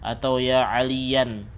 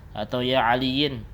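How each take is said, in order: First: The name ends with an an sound. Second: The name ends with an in sound. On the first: "juga salah" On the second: "juga salah"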